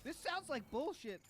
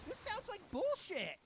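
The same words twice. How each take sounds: First: Slower, higher scoffing line; mild scoffing as imagined Phil; mock Phil retort. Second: Hammed-up disbelieving retort; exaggerated scoff. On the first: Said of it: "I hope Phil said that to the worker". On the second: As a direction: blow the scoff up into a cartoonish yell.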